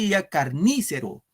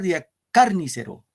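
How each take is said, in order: First: The stress falls on the syllable ni. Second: The stress falls on the syllable car. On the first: "Si fuera en ni, ... No decimos carnícero" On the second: "Si fuera en car"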